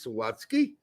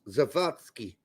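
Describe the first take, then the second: First: The name is said with an American English pronunciation. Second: The name is said with a German pronunciation. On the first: "in American English, he is Sawatsky" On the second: "in German he would be pronounced Zawadzki"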